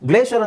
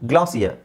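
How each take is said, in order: First: It is said in an American accent, 'glay-sher'. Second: It is said in a British accent, 'glass-ee-er'. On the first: "ಗ್ಲೇಷಿಯರ್ ಅಂತ American ಇಂಗ್ಲೀಷಲ್ಲಿ ಹೇಳ್ತಾರೆ" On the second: "ಗ್ಲಾಸಿಯರ್ ಅಂತ British ಇಂಗ್ಲೀಷಲ್ಲಿ ಹೇಳ್ತಾರೆ"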